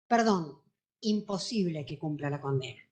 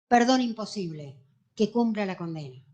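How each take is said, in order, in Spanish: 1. Hay una pausa después de 'perdón'. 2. Hay una pausa después de 'imposible'. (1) "La coma alteró totalmente el sentido de la oración" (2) "en la que se leía lo siguiente"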